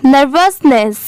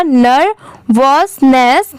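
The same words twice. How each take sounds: First: Said in the usual way. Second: nervousness very slowly as ner, vos, ness; drawn-out nervousness, a pause after each syllable. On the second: Shown as a demonstration. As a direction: break nervousness into three spaced parts. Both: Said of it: "पूरा मिला देंगे".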